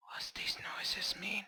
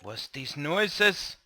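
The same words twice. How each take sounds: First: Hushed whispered question; whispering. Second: Said in the usual way. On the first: Pretend. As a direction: whisper it so nothing hears you. Same question repeated in whisper.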